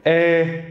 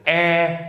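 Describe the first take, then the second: First: "Eh" held high from the throat, no nasality; non-nasal throaty vowel. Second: "Eh" held high through the nose; nasal vowel. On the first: Teacher distinguishing two sounds without moving mouth, throaty vowel. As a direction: keep "Eh" out of the nose, down in the throat. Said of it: "the non-nasal one". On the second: Teacher distinguishing two sounds without moving mouth, nasal vowel. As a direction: let air out through the nose on "Eh". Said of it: "The more nasal one". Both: Shown as a demonstration.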